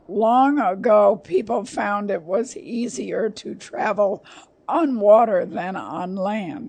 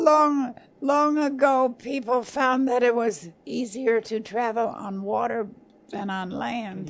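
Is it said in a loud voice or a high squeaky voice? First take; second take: loud voice; high squeaky. First: It is said in a loud voice. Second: It is said in a high Minnie Mouse voice.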